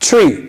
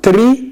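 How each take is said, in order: First: The tr starts with a ch-like sound. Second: The tr starts with a plain t sound. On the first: The speaker calls it right. "it's tree" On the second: The speaker calls it wrong.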